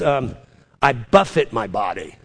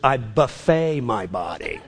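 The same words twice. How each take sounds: First: Buffet is said with stress first, ending in -it. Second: Buffet is said with stress last, ending in -ay. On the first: The body is struck and beaten into submission. "The King James says" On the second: The body is fed at an all-you-can-eat meal. "Not to be confused with"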